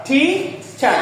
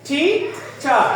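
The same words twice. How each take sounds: The two takes are said the same way.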